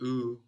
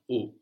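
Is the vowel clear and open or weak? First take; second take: weak; clear open. First: The vowel is weak and reduced. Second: The vowel is clear and open. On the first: The speaker calls it wrong. "I make it kind of a bit weaker, the vowel" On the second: The speaker calls it right. "It's a clear open vowel"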